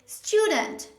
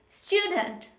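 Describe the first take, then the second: First: The stress is on the first syllable. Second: The same.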